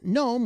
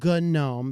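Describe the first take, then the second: First: The initial G sound is silent. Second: The initial G sound is pronounced. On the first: It is said like the little creature with a pointy hat. "pronounced gnome with a silent G" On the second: The name comes from GNU. "because it's a operating system for G N U"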